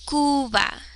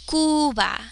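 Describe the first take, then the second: No difference in how they are said.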